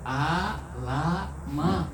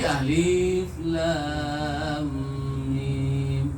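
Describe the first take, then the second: First: Each letter is read as a short syllable. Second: Each letter is read by its full name. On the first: This is the ordinary way of reading the letters. "Kalau dibaca secara biasa" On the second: This is the special, unusual way of reading the letters. "karena ini gharib, tidak seperti biasanya"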